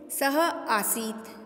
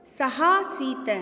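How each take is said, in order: First: सह आसीत said very slowly as two words; split pronunciation. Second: सहासीत said slowly as one word; joined pronunciation. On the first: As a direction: pull सहासीत apart into सह and आसीत. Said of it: "तोड़ करके बोल सकते हैं". (सह आसीत को तोड़कर धीरे बोलें) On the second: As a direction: say सहासीत whole, drawn out. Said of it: "सहासीत में भी वापस पुनः". (सहासीत को एक शब्द में धीरे बोलें) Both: Shown as a demonstration.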